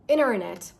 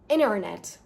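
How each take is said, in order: First: The T after N is dropped. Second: The same.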